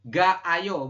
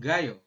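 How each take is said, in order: First: The vowels stay separate, giving three syllables. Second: The vowels merge together, giving two syllables. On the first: The speaker calls it wrong. "jadi bukan ga ayo bukan" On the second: The speaker calls it right. "tapi langsung gayo"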